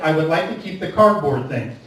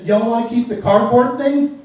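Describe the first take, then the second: First: Said in the usual way. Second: Mild mock southern "Y'all wanna keep the cardboard thing?"; lightly put-on Appalachian twang on "Y'all"; southern drawl. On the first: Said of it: "I said". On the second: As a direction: cashier repeats in a light southern accent. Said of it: "She said".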